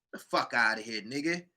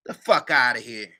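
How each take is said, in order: First: Dropped to a soft, low scoff; softer dismissal. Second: Said in the usual way. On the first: Real, not acted. Brushing off the claim, much softer. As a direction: mutter it away.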